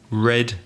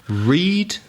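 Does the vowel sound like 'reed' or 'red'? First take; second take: red; reed. First: The vowel is short, like red. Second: The vowel is long, like reed. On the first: It is the past form. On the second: It is the present form.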